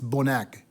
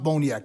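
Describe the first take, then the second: First: The name has a plain 'a' before k. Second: The name has a 'ya' sound before k. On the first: The speaker calls it right. "It's Bonac" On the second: The speaker calls it wrong. "It's not Boniac"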